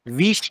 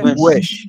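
First: The w is made without rounded lips. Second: The w is made with tightly rounded lips. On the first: The speaker calls it wrong. "Wish نیست" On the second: The speaker calls it right.

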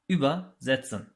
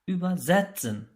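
First: The stress falls on the prefix über. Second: The stress falls on the syllable after the prefix. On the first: The prefix separates and the meaning is literal. "Bunlar ayrılabilen fiillerdi ve kırmızı olarak gösterdiğimiz prefikslerden ayrılıyorlardı" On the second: The prefix stays attached and the meaning is figurative. "şeklinde vurgulandığında ise ayrılmayan fiiller olarak karşımıza çıkıyorlardı"

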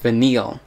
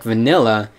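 First: The name ends with an l sound. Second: The name ends with a vowel sound. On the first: "in the English version, for some reason, they pronounced it Vanil" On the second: "That's how they pronounced it in the Japanese version"

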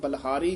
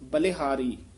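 First: The l is followed directly by h, no vowel. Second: The l is followed by a short i vowel. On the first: The speaker calls it wrong. "ਬਲਿਹਾਰੀ ਨਹੀਂ ਕਹਿਣਾ" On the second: The speaker calls it right. "ਲੱਲੇ ਦੀ ਸਿਹਾਰੀ ਉਚਾਰਨ ਕਰਨੀ ਹੈ"

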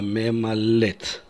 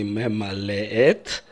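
First: The two e vowels merge into one. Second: The two e vowels are said separately. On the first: The speaker calls it right. "сливаются два звука э" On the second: The speaker calls it wrong. "не мемалет"

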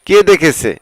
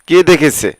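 The two takes are said the same way.

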